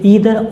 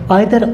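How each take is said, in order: First: The first vowel sounds like 'ee'. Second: The first vowel sounds like 'eye'. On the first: This form is also acceptable. "इसे ईदर और भी बोल सकते हैं" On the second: This is the British English form. "British English में इसे आइदर और या फिर नाइदर नॉर बोला जाता है"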